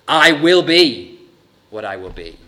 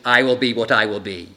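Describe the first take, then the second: First: The first 'will' is strongly emphasized. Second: The first 'will' carries no special emphasis.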